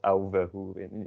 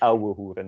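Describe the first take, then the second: First: The consonant after 'ou' sounds like a v. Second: The consonant after 'ou' sounds like English w. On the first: The speaker calls it wrong. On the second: The speaker calls it right. "more is pronounced as the W in English, like a w"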